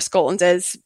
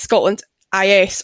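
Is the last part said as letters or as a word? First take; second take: word; letters. First: The last part is said as one word. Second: The last part is spelled out as two letters. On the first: The speaker calls it right. "I think it's Scotland Is, and it kind of goes with Scotland Is Innovative" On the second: The speaker calls it wrong. "people do get confused between whether it's Scotland IS"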